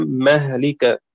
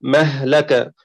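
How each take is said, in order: First: مهلك with open m and kasra on the lam, mahlik; mahlik reading. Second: مهلك with open m and open l, mahlaka; mahlaka reading. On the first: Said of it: "بفتح الميم وكسر اللام". (مهلك بفتح الميم وكسر اللام) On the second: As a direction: say مهلك as mah-la-ka, fatha on the lam. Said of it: "بفتح الميم والهاء". (مهلك بفتح الميم واللام) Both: Shown as a demonstration.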